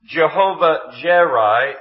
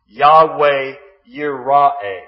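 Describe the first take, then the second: First: The words begin with a J sound. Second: The words begin with a Y sound.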